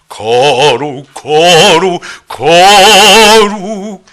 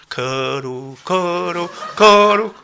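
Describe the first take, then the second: First: It is said loudly with full force. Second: It is said softly in a light voice. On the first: It is true praise to God. The speaker calls it right. "이게 찬양이에요" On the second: It is mere worldly singing. The speaker calls it wrong. "그 세상 노래하는 거예요"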